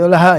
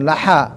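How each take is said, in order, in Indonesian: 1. Bunyi h itu bunyi napas yang ringan. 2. Bunyi h itu bunyi tenggorokan yang kasar dan serak. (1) "Laha mah gampang ha aja di aksol halki"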